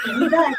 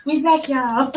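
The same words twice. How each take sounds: First: Laughing announcement. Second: Loud laughing "We back, y'all"; laughing loud announcement. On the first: Acted. Announcing return loudly, laughing. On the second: Retold or imitated. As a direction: shout "back" through a laugh. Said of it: "That's how I was like".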